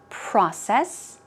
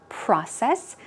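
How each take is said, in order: First: It is said with an American accent. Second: It is said with an American accent.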